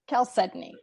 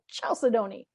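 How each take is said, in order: First: The word is pronounced differently from how it looks. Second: The word is pronounced the way it looks. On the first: The speaker calls it right. "It's chalcedony" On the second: The speaker calls it wrong. "Every time I want to go chalcedony, and it's not"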